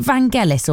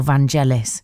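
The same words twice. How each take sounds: First: [name] with a hard G, as in get. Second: [name] with a soft G, like a J. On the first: Radio host checking a name with co-host, [name] with a hard G. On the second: Radio host offering the other pronunciation, [name] with a soft G. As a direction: say the G in [name] as in gem. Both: Shown as a demonstration. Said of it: "soft G".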